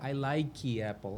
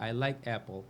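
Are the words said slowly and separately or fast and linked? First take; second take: slow, separate; fast, linked. First: The words are said slowly and kept separate. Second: The words are said fast with the sounds changed. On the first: "não fica I like apple" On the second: "cada vez que você faz aquilo mais rápido, você substitui os sons"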